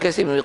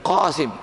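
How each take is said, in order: First: The name begins with a plain front k. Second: The name begins with a deep throaty q. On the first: This is the local Malay way of saying it. The speaker calls it wrong. "Sebenarnya bukan Kasim" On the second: This is the original Arabic way of saying it. The speaker calls it right. "dia sepatutnya Qasim bukan Kasim"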